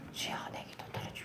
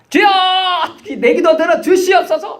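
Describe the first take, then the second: First: The prayer is said quietly, under the breath. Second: The prayer is said loudly, aloud.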